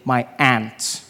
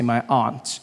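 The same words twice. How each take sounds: First: Aunt is said the American way, like 'ant'. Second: Aunt is said in the speaker's own accent, like 'ahnt'.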